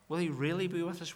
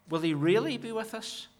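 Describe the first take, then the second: First: Quieter repeat weighting "he"; hushed question weighting "he"; stress on he. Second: "really" lifted high in a sharp questioning rise; doubting question peaking on "really"; stress on really. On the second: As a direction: lean hard on "really", pitched up. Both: Shown as a demonstration.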